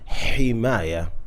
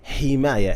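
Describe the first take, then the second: First: The h is a strong, throaty h. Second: The h is a light, breathy English h. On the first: The speaker calls it right. "He didn't say حماية" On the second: The speaker calls it wrong. "He also said حماية"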